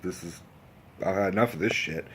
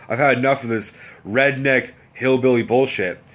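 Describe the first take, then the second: First: Low, soft acted grumble; quietly fed up. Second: Acted exasperation at fuller volume; emphatically fed up. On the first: Cook thinking he's had enough, quietly fed up. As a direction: keep it under the voice, like a thought. Cook's unspoken fed-up thought, first take. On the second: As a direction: spell out the disgust word by word. Same fed-up thought, stronger second take.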